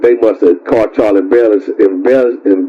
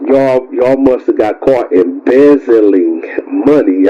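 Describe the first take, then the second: First: Tongue-tied stumble. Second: Careful retake. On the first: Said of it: "Y'all know that I'm tongue-tied". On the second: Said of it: "I can't even speak right". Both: Real, not acted.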